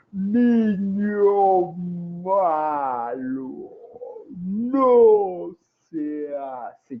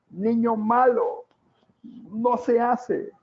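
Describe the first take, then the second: First: Drawn-out booming scold, much slower; slow-motion scolding. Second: High, slow mock scolding of a small child; scolding adult. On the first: Retold or imitated. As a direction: stretch every word like a slowed-down film. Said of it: "el niño lo ve como en cámara lenta". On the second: Adult scolding the scribbling child, high and slow. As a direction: wag a finger at a naughty toddler. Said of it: "y le dice".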